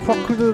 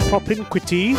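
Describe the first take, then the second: First: The word's sounds come out jumbled and garbled. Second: The word's sounds come out clearly and in order. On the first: The speaker calls it wrong. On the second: The speaker calls it right.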